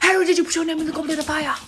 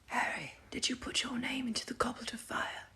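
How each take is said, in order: First: It is said aggressively and loudly. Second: It is said calmly and quietly.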